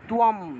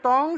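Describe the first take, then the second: First: It has a w glide and ends in m. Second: It is one syllable ending in ng. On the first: This is the Sanskrit reading of the word. "সংস্কৃত উচ্চারণ হবে" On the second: This is the Bengali reading of the word. "বাংলায় বললে তং"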